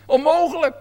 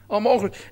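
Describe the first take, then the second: First: Onmogelijk raised high and pushed out hard; emphatic impossible. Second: Said in the usual way. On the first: Shown as a demonstration. Preacher hammers Onmogelijk to the congregation, emphatic. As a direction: throw out Onmogelijk with a lift.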